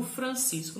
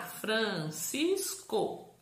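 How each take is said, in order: First: Said in the usual way. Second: FRANCISCO cut slowly into Fran, cis, co; Fran... cis... co, with clear breaks; split into syllables. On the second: Shown as a demonstration. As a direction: say Francisco in three separate beats. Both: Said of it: "nós vamos partir em sílabas primeiro".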